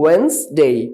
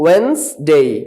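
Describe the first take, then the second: The two takes are said the same way.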